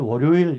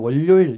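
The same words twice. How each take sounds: First: It is said with a standard Seoul intonation. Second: It is said with a Busan dialect pitch pattern. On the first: "서울 사람들 월요일 이렇게 그러더라고요" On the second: "근데 부산 사람은 월요일 이러거든요"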